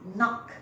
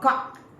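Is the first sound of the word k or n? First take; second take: n; k. First: The word begins with an n sound. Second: The word begins with a k sound. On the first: The speaker calls it right. "You pronounce knock" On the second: The speaker calls it wrong. "Cannot say knock or cock"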